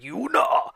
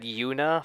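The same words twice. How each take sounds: First: Put-on high-pitched Japanese-accented shout of Yuna; thick Japanese accent. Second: Said in the usual way. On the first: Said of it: "this really thick Japanese accent". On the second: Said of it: "said Yuna phonetically".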